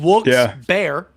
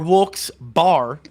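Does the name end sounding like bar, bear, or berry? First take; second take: bear; bar. First: The second part sounds like the animal bear. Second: The second part sounds like a drinking bar. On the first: "like the animal" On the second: "like a alcohol bar"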